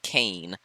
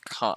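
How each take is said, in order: First: The vowel is an 'ay' sound. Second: The vowel is an open 'ah' sound. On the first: The speaker calls it wrong. "not Kane" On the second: The speaker calls it right. "I now know it's Con"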